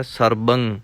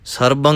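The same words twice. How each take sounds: First: ਸਰਬੰ with a light, gentle ਬ; soft pronunciation. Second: ਸਰਬੰ with a hard stressed ਬ like ਭ; wrong heavy reading. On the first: Teacher showing students the soft correct ਸਰਬੰ. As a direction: keep the ਬ in ਸਰਬੰ soft and easy. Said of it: "ਪੋਲਾ ਪੜ੍ਹਨਾ ਹੈ". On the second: Teacher showing students the wrong heavy ਸਰਬੰ. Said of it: "ਸਰਬੰ ਕਰਾਂਗੇ ਤਾਂ ਭੱਬਾ ਲੱਗੇਗਾ". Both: Shown as a demonstration.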